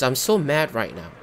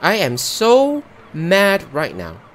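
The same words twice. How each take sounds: First: Said in the usual way. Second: Slow, louder, every word pressed out; real anger. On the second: Real, not acted. Player fuming at the game over the lost pizza, slow and loud. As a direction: spell out how mad he is.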